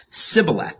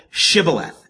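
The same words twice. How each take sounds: First: Sibboleth with a plain S at the start; sibboleth, S in place of SH; mispronunciation with dropped H. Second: Shibboleth with a clear SH at the start; correct pronunciation. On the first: Retold or imitated. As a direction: say sibboleth, opening on "s" as in "sip". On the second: Shown as a demonstration. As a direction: say shibboleth, opening on "sh" as in "ship". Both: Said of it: "drop the H from the word".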